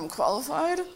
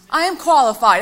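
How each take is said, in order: First: It sounds unsure, like a question. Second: It sounds firm, like a statement. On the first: The speaker does not yet believe it. "it's going to have a question mark" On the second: The speaker believes it is true. "an inflection that's going to change as you start to speak"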